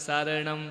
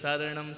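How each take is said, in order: Both takes have the same delivery.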